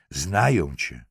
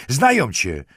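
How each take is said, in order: First: Said in the usual way. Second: High, louder menacing jab. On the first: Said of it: "powtórzył". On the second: A narrator's reading. Lieutenant menaces the girl at close range, menacing. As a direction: throw it at them as a raised threat. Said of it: "wysyczał jej do ucha".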